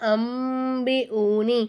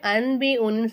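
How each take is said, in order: First: The nasal before the b sounds like m. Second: The nasal before the b sounds like n. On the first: The speaker calls it right. "மீமா மாற்றி உச்சரிக்கணும்" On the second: The speaker calls it wrong. "அன்பி ஊனின்னு சொல்லக்கூடாது"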